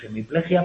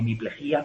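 First: The stress is on 'ple', ending in one syllable. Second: The stress is on 'ji', ending in two syllables. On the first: This is the usual everyday form. "generalmente decimos hemiplejia" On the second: This is the form written in the course text. "con acento, rompiendo el diptongo"

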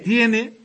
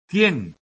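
First: The final vowel is pronounced. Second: The final vowel is dropped. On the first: "en vez de tiene" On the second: "dicen ellos, tien"

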